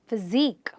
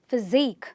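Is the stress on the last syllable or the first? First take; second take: last; last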